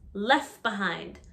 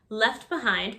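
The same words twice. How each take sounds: First: The final T sound of left is dropped. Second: The final T sound of left is heard.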